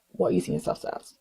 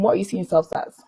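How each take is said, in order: First: Near-whispered rhetorical question; hushed repeat. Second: Said in the usual way. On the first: Real, not acted. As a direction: repeat it under your breath, very softly. Question repeated under her breath.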